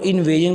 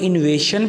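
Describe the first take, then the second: First: The middle consonant is a voiced 'zh' sound. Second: The middle consonant is a voiceless 'sh' sound. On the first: The speaker calls it right. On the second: The speaker calls it wrong.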